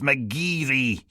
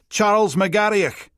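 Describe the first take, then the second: First: The name ends in a plain ee sound. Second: The name ends in a throaty hissing och sound. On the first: The speaker calls it right. "It's McGeary" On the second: The speaker calls it wrong. "Pronouncing it McGarrioch, with a gritty coffee machine hiss for the och"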